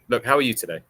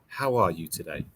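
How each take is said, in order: First: It is said as a neutral, genuine question. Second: It is said in a sympathetic, pitying tone.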